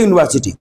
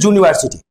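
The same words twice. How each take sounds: First: Said in the usual way. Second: "ইউনিভার্সিটি" said as "juniversity"; "ইউনিভার্সিটি" with a "joo" opening; England-style J sound. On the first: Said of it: "আমাদের ভারতীয় ইংলিশে". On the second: Shown as a demonstration. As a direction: start "ইউনিভার্সিটি" with J in place of "you". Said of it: "কিন্তু England ইংলিশে".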